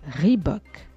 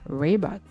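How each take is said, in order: First: It is said with an English pronunciation. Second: It is said with an American r sound. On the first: This honours the founder of the brand. "Rendons justice au fondateur de la marque" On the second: This is an option for those who can do American r. "si vous savez rouler les airs à l'américaine"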